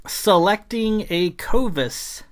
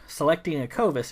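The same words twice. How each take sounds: First: Slow, high title read with a stressed "Selecting"; announced chapter title. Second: Said in the usual way. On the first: Shown as a demonstration. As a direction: stretch out "Selecting a Covis" like a title card.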